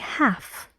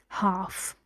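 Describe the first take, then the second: First: It is said in an American accent. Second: It is said in a British accent. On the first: "In American English, ... but here you say half" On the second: "In British English, we say half"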